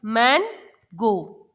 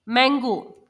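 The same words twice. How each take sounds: First: मैनगो broken in two, मैन, pause, गो; split into syllables. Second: Said in the usual way. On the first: Shown as a demonstration. Teacher showing children two syllables, मैनगो split by a pause. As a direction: say मैनगो as two slow, separate beats. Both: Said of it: "दो अलग-अलग sounds को".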